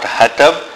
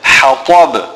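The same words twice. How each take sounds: First: It starts with a light, small ha. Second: It starts with a deep, big ha. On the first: The speaker calls it wrong. "A common mistake is to say hatab" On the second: The speaker calls it right. "Rather it is a big ha and a ta"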